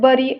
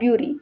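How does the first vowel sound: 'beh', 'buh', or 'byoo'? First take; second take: buh; byoo. First: The first vowel sounds like 'buh'. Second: The first vowel sounds like 'byoo'. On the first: "not बरी" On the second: "और ब्युरी"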